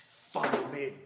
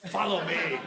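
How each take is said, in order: First: Lightly mock-solemn, lower-voiced call; kids' imitation of an earnest film line; imitating Jesus. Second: Playful, fuller-voiced mock summons; hammed-up copy of an intense movie line; imitating Jesus. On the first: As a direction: playfully copy an intense movie summons. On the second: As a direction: do it bigger, playing to the laugh. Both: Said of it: "imitating that and doing it to one another".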